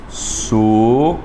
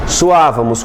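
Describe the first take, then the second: First: Suávamos drawn out slowly, split as su-á-va-mos; slow syllable split. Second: Said in the usual way. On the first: Shown as a demonstration. Teacher showing the class how Suávamos splits, slow and separated. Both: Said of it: "Como é que fica suávamos".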